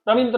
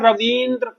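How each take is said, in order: First: The vowel after 'v' is short and quick. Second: The vowel after 'v' is drawn out long. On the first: The speaker calls it wrong. "एकदम जल्दी बोल जाते, गलत" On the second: The speaker calls it right. "खींच के बोल लेंगे"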